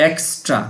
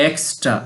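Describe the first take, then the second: Both takes have the same delivery.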